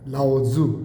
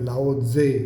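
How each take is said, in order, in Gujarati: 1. બીજા ઉચ્ચારાંશનો અંત 'u' સ્વરથી થાય છે. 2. બીજા ઉચ્ચારાંશનો અંત 'e' સ્વરથી થાય છે. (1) "એમનું જે ખરું નામ છે એ છે લાઓ ઝુ" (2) "આપણે ત્યાં ઘણા લોકો એને લાઓ ઝે એમ બોલાવે છે"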